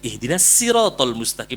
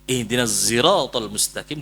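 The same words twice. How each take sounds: First: The word sirat begins with a plain s sound. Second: The word sirat begins with a z-blended s sound. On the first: "dengan sin" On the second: "dengan zai ismam"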